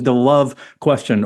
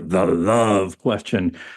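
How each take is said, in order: First: It is said in an ordinary speaking voice. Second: It is said in a deep, manly voice.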